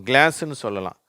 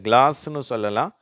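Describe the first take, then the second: The two takes are said the same way.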